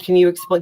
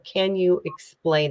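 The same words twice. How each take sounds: First: The question sounds flustered and not curious. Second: The question sounds slow, calm and curious. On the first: The asker is thrown and reacting. The speaker calls it wrong. "Not the tone wasn't, oh" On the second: The asker is genuinely interested. The speaker calls it right. "I fired a question in a curious way"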